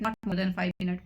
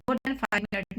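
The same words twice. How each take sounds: First: Not said first and firm, the rest slow; slow correction with not stressed. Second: Said in the usual way. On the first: Real, not acted. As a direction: lean on not, then slow down.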